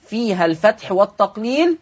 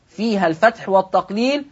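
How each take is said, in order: Both takes have the same delivery.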